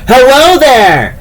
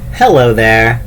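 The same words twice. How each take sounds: First: It is said in a loud, jolly voice. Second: It is said in a plain reading voice.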